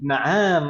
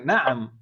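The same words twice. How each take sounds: First: The vowel after the ain is drawn out long. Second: The vowel after the ain is kept short. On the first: The speaker calls it wrong. "Jangan sampai dibaca ainnya panjang... Akhirnya gitu" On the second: The speaker calls it right.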